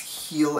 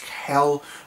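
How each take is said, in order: First: The name has a long vowel, like 'heel'. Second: The name has a short vowel, like 'hell'. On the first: The speaker calls it right. "It's Heel" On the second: The speaker calls it wrong. "when people are pronouncing it, they call it like Hell, but it's not"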